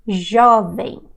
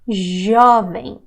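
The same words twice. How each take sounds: First: Jovem with the nasal ending; Portuguese jovem. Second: Jovem said the Brazilian way; Portuguese jovem. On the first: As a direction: Jovem said slowly the Brazilian way. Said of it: "the J doesn't have the sound". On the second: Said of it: "See how I say it?". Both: Shown as a demonstration.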